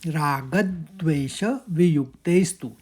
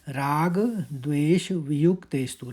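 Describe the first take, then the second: First: Raga is struck hard, ending in a clipped d. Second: Raga flows smoothly into dvesha without extra stress.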